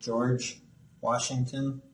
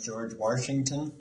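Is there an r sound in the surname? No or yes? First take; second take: no; yes. First: The surname has no added r sound. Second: An r sound is added in the surname. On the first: The speaker calls it right. "trying to say George Washington" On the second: The speaker calls it wrong. "the R just kind of follows into the first part of his name"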